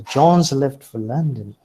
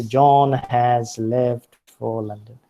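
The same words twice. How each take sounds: First: Louder, "John's" run together as one word; contracted weak form. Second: Slow, with "has" said in full; uncontracted strong form. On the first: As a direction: shrink has to a z on "John's". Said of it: "They pronounce it as". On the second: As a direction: spell out "has" as a separate, full-vowelled word. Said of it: "They do not say". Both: Shown as a demonstration.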